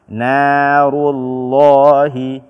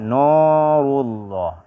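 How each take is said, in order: First: The n is pronounced light and thin. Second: The n is pronounced heavy and thick. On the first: The speaker calls it right. "bacalah dengan tipis" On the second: The speaker calls it wrong. "Jangan dibaca narullah"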